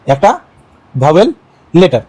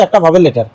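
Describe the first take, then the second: First: "একটা, vowel, letter" with a pause after each word; word-by-word emphasis. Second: Said in the usual way. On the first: Shown as a demonstration. Teacher drumming in the minimum condition, "একটা vowel letter" word by word. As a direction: spell out "একটা vowel letter" one word at a time, pitch rising on "vowel".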